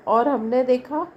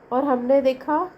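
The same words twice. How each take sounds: The two takes are said the same way.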